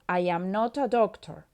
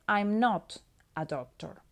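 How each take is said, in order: First: 'I am' is said as two full words. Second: 'I am' is shortened into one syllable.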